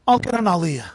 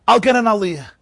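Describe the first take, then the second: First: Said in the usual way. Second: "get" stressed, louder insistence; insistent repeat. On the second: Retold or imitated. Boy insisting to Moshe he will take the Aliyah, louder. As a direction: insist on it the second time.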